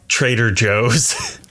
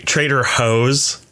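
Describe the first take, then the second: First: The J is an English j sound. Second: The J is a Spanish h sound. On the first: The speaker calls it wrong. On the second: The speaker calls it right.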